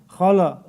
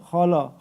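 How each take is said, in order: Both takes have the same delivery.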